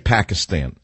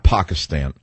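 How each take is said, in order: First: Pakistan is said with an Americanized pronunciation. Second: Pakistan is said with a native-like pronunciation. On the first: It is the ordinary American way to say it. The speaker calls it right. "Americans say Pakistan" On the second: It sounds politically correct. The speaker calls it wrong. "not Pakistan"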